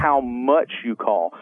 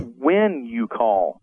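First: "much" stressed, slow and falling. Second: "when" stressed, slow and falling. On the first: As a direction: lean on "much" in "how much you call". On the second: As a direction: lean on "when" in "when you call". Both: Shown as a demonstration. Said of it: "as important as how you sound".

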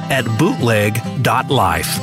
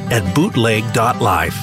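No difference in how they are said.

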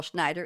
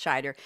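First: "Schneider" said with an n, SHNY-der; wrong pronunciation. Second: "Scheider" said SHY-der, with no n; correct pronunciation. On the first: Host correcting a common mispronunciation, "Schneider" with n. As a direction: say "Schneider" with the added n sound. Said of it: "it's Scheider". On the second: Host giving the actor's right name, "Scheider" as SHY-der. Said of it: "who people often call Schneider". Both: Shown as a demonstration.

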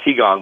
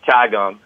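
First: Qigong said as "chee-gong"; correct pronunciation. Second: Qigong said as "chai-gong"; mispronounced. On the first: Shown as a demonstration. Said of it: "but he's called it Qigong". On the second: Retold or imitated. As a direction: say Qigong with "chai" at the start, like the caller. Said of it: "it's called Qigong".

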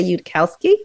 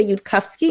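First: "Yudkowsky" said the English way, "yood-COW-skee"; English pronunciation. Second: "Yudkowsky" said the Hebrew way, "yood-KUFF-skee"; Hebrew pronunciation. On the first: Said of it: "In English, we say". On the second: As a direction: say "Yudkowsky" as in Hebrew, middle syllable "kuf". Shows Hebrew pronunciation of surname. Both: Shown as a demonstration.

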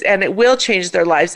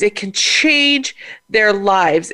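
First: The word will leaned on, firm and certain; stress on will. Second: Said in the usual way. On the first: Real, not acted. Teary host insists on will, stressed. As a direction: push will to insist it happens. Emotional repeated promise.

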